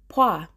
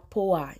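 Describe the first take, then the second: First: The vowels merge into a single syllable. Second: The vowels are split into two syllables. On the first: The speaker calls it right. "vai ficar poá" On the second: The speaker calls it wrong. "não vai ficar poá"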